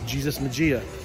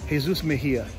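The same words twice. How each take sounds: First: The name is said with English sounds. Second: The name is said with Spanish sounds. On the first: The speaker calls it wrong. "Don't make the mistake of saying it that way" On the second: The speaker calls it right. "his name is"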